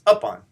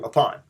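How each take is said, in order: First: The stress is on the first syllable. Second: The stress is on the second syllable. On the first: It becomes an entirely different word. The speaker calls it wrong. "with the stress on the the up and the unstressed part on the on" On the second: It is the familiar everyday word. The speaker calls it right. "which is much more familiar for us"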